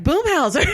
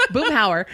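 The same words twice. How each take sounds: First: Much higher, mock Boomhauer blurt, mispronounced as Boomhauser. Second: Boomhauer said correctly, no s, through a laugh; Boomhauer, fixing the name while still laughing; corrected name. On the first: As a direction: blurt the cartoon name like a punchline. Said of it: "I was like". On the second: Shown as a demonstration. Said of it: "is it Boomhauser or Boomhauer".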